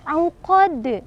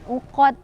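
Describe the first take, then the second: First: The final consonant is released with a clear bounce. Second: The final consonant is weak, without a bounce. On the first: The speaker calls it right. "dal memantul" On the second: The speaker calls it wrong. "uqad kurang tepat, tidak boleh ya"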